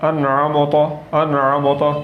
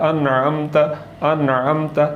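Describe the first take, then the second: The two takes are said the same way.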